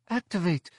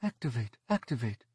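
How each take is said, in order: First: High, urgent cry through a wall; muffled shout. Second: Quiet, muffled, from another room; faint muffled voice. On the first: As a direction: shout it muffled from behind a panel. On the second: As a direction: call through a wall. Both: A narrator's reading. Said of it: "a faint muffled voice".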